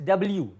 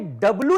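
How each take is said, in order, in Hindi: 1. इसे तीन शब्दांश में बोला जाता है, double-you। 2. इसे दो शब्दांश में बोला जाता है, dub-loo। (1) "इट्स डब्ल्यू" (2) "ये डब्लू नहीं है"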